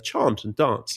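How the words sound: It is said in a London accent. "with my London accent, I would say chant and dance"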